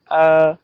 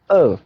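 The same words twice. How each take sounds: First: The pitch stays high and level. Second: The pitch falls sharply from high to low. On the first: "First tone on A" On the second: "now fourth"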